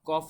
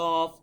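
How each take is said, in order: First: The first consonant is made further forward in the mouth. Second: The first consonant is made deep in the throat. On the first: The speaker calls it wrong. "কফ না" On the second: The speaker calls it right. "গলার ভেতর থেকে আওয়াজটা আসবে"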